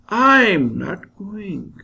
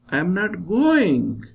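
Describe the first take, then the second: First: The stress is on the word I'm. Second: The stress is on the word going. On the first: Someone else is going instead. "when I stress I'm, I'll pronounce it like this" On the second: The speaker may be coming rather than going. "When I stress going"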